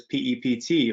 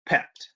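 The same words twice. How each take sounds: First: P E P T said letter by letter; spelled-out acronym. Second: Pept said as one syllable; acronym as word. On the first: Speaker introducing the technique to the webinar, P E P T spelled out. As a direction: spell out P E P T as four separate letters. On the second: Speaker showing the webinar his usual pronunciation, pept as one word. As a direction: say pept as a single word, not letter by letter. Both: Shown as a demonstration. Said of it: "generally pronounce that acronym".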